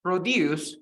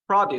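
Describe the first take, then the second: First: Produce stressed on the second syllable, pro-DUCE; verb produce. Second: Produce stressed on the first syllable, PRO-duce; noun produce. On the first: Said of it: "The verb is". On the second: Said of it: "and the noun". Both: Shown as a demonstration.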